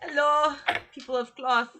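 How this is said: It is said in Rian's put-on voice.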